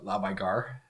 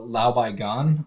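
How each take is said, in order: First: It is said in a northern Chinese accent. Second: It is said in a standard Mandarin accent.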